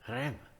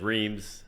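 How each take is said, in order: First: It is said with an attempted French pronunciation. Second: It is said with a plain American pronunciation. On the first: An effort to say the name the local way. "he did his best to go ah" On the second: The listener could not understand the destination. "he said Reims"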